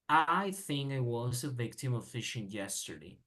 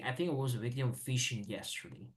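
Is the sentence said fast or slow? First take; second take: slow; fast. First: It is said slowly, word by word. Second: It is said quickly, words run together. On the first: "if I read slow, I would say" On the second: "when people read all this together, they say"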